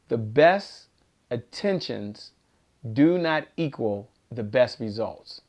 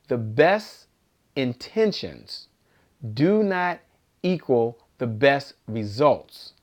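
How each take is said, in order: First: It is said at a normal pace. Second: It is said a little more slowly.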